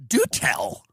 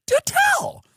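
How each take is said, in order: First: Low, dry mock interest; sarcastic do tell. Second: Mock astonished squeal. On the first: Comic mocking a friend, low dry sarcasm. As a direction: say it like a bored aside. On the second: Comic to a friend, high mock astonishment. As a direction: squeak it in fake amazement. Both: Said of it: "I go".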